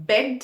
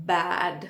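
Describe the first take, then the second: First: "bed" with a short e vowel; crisp e in "bed". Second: "bad" with an open, longer a; lower-pitched "bad", vowel wide open. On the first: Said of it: "बेड में ई है". ("bed" में छोटा ए बोलें) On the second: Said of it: "बैड में ए है". ("bad" में खुला ऐ बोलें) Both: Shown as a demonstration.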